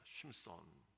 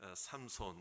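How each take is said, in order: First: The name is said with a Hebrew-style pronunciation. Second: The name is said with a Korean-style pronunciation. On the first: "히브리어 발음식으로 발음하면 쉼손이라는 겁니다" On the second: "삼손 이렇게 우리가 한글식으로 하면"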